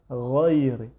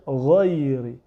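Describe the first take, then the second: Both takes have the same delivery.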